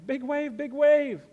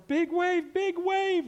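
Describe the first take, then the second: First: High, loud squeals of joy; a little girl shrieking with glee at the waves; excited shrieking. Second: Very high, choked cry of fear; a scared child clinging on, choking out the words; terrified. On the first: Daughter squealing at the waves in the shallows, excited high shriek. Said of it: "shrieking with excitement and was giggling". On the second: Daughter clinging to her father in the surf, high choked terror. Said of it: "choke out the words ... with terror". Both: Retold or imitated.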